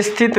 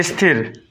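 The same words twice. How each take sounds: First: स्थित with a final t sound; wrong word shown. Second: स्थिर with a clear final r sound; correct word. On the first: Teacher showing the wrong word, स्थित with t. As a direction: say स्थित as the mistaken form, ending on t. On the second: Teacher correcting to स्थिर, ending on r. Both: Shown as a demonstration. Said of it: "स्थित नहीं".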